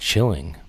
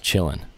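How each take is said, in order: First: The ending is said with a full -ing sound. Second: The ending is said as -in without the g. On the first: The speaker calls it wrong. "not chilling" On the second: The speaker calls it right. "in the way that it seems to be intended"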